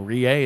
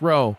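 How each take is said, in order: First: The word is said with two syllables, 'ree-ah'. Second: The word is said with one syllable, 'row'. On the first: The speaker calls it wrong. "It ain't no re-a" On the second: The speaker calls it right. "it's row"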